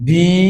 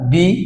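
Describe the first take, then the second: First: The vowel is long and drawn out. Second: The vowel is short and clipped. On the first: The speaker calls it right. "বি right pronunciation বি টেনে বলতে হবে" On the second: The speaker calls it wrong. "বি ভুল"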